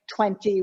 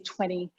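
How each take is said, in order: First: The second t sound is fully pronounced. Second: The second t sound is dropped and reduced. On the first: "Instead of saying twenty" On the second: "we're always looking for ways to contract and reduce sounds"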